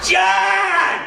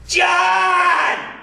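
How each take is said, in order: First: High shouted name, laughing through it. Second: High shouted name, calling across a store. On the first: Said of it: "I can't make that sound loud enough". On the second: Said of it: "Dave yells after me". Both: Retold or imitated.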